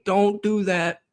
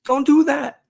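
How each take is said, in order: First: Talking at the TV. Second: High pleading yell, louder. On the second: Fan yelling at the TV to stop the play, high pleading yell. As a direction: beg the screen not to, voice jumping up high. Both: Retold or imitated. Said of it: "you're talking to your T V and you're saying".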